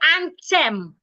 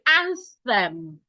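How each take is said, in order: First: The middle sound is a plain t. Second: The middle sound is a tongue-out th. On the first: The speaker calls it wrong. "They will pronounce the T H like an ordinary T" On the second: The speaker calls it right. "you should put your tongue out and say anthem"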